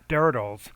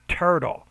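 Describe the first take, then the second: First: The word begins with a soft D sound. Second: The word begins with a crisp T sound. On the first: The speaker calls it wrong. "not dirtles" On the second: The speaker calls it right. "but turtle"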